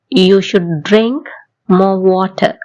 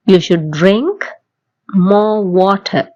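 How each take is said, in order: First: Very slow, each word spaced out; slow model sentence. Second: Said in the usual way. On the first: Shown as a demonstration. Teacher slowly modelling a sentence for learners to repeat. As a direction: spell it out slowly for the class. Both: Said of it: "என் கூட சேர்ந்து சொல்லி பாருங்க".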